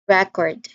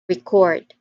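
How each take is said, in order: First: The stress is on the first syllable. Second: The stress is on the second syllable. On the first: It is a noun meaning a documented item. "Stress again the first syllable" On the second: It is a verb meaning to capture sound. "the stress shift to the second syllable"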